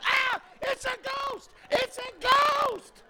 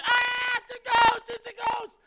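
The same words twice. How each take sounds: First: High, slow, shouted ghost panic; hammed-up fright of grown men; mock terrified. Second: High shouted ghost panic; hammed-up panic in the room; mock terrified. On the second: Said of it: "grown men running around".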